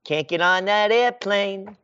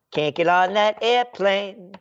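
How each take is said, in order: Both takes have the same delivery.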